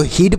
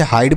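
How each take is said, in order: First: हिड with a short i like "hid"; the mistaken हिड, short clipped i; हिड read letter for letter, wrongly; wrong pronunciation. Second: हाइड said with a long "ai" diphthong, hide; हाइड rhymes with side, silent final e; हाइड as in English hide; correct pronunciation. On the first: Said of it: "ना तो हिड पढ़ेंगे". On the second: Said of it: "इसे आपको हाइड पढ़ना है". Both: Shown as a demonstration.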